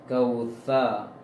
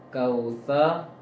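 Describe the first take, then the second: Both takes have the same delivery.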